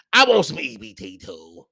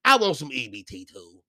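First: Louder demand. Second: Said in the usual way. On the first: Real, not acted. Ranting about being denied EBT.

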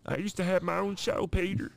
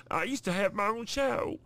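First: Hammed-up Cleveland, much higher, talking to Peter; a cartoon dad teasing Peter. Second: Hammed-up Cleveland impression, much higher; playful cartoon voice on the word show. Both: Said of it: "The Cleveland Show".

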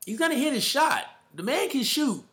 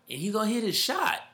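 First: Pitched way up, hyped about the shooter; excited emphasis. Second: Said in the usual way. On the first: Real, not acted. Hyped podcaster insisting Murray will hit his shot, excited. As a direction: repeat it, higher and more fired up.

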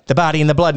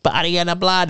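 First: Said in the usual way. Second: Lightly put-on creepy girl voice; changing possessed voice. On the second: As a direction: imitate a possessed girl's voice starting to change. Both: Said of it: "and her voice starts to change".

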